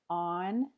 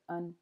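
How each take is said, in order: First: The word has its full vowel. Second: The word has a reduced schwa vowel. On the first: "the full form" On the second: "you might just hear un"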